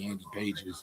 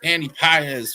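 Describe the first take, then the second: First: The surname sounds like the English word 'pages'. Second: The surname is said with a Spanish-style pronunciation. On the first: The speaker calls it wrong. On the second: The speaker calls it right.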